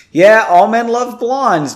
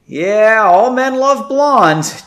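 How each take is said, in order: First: Said in the usual way. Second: Slow, high forced stage whisper; slow breathy aside; strained whisper. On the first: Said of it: "I'm not gonna whisper". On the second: A narrator's reading. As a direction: push a whisper through a sore throat. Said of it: "Janey whispered".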